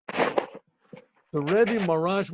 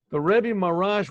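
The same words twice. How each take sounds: First: "The Rebbe Marash" stretched very slowly, each word drawn out; drawn-out restart. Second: Said in the usual way. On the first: Shown as a demonstration. Teller restarting the tale for the listener: slowly drawn-out "The Rebbe Marash".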